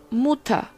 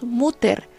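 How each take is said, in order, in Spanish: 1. El final es un sonido 'a' suave. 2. El final es una 'er' fuerte, al estilo español. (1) "decimos Mutter" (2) "no decimos Mutter"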